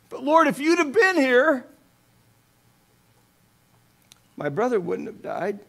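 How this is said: It is said through sobbing and tears.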